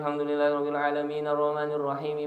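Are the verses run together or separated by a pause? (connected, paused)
connected. The verses run together without a break. "Harusnya kan diwasol"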